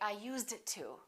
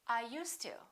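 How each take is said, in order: First: A separate D sound is heard before the T. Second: The D merges into the T; no D heard. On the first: The speaker calls it wrong. "they never say" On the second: The speaker calls it right. "it really doesn't sound like a D ever"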